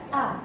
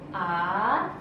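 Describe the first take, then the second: First: The pitch drops sharply and abruptly. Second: The pitch goes up throughout. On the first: "nada yang agak nyentak sih" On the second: "nada naik"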